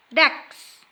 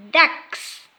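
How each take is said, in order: Both takes have the same delivery.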